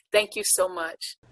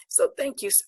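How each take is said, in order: First: Said in the usual way. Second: Real tears rising, the thanks cut short; getting choked up mid-thanks. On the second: Real, not acted. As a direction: voice catching and breaking off high. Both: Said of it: "I'm getting choked up".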